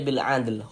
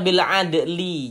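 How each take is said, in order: First: The last word ends on a bare l consonant. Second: The last word ends with a short i vowel. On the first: The speaker calls it right. "tapi dibaca bil adl. Huruf lamnya kita sukunkan" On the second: The speaker calls it wrong. "Jangan dibaca bil adli"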